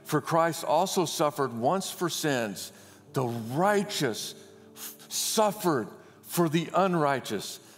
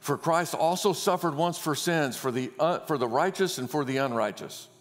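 First: It is read slowly, with phrases set apart. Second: It is read quickly, running phrases together.

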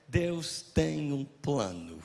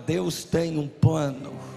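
First: It is said flatly, without warmth or conviction. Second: It is said warmly, with a smile in the voice. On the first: Nobody believes the words. The speaker calls it wrong. "Desse jeito nem Deus tem, nem você tem, nem ninguém tem" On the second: The speaker believes the words. The speaker calls it right. "com um sorriso"

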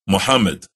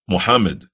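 The two takes are said the same way.

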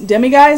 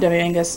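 First: The name ends with a 'guys' sound. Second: The name ends with a 'gus' sound. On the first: The speaker calls it right. "I think is how you say it" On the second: The speaker calls it wrong. "or not Demingus"

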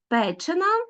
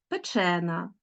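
First: The stress falls on the root. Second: The stress falls on the suffix. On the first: It names a thing that has undergone an action. "У дієприкметників найчастіше наголос падає на корінь" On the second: It names a lasting quality of the thing. "У прикметниках найчастіше наголос на суфіксі"

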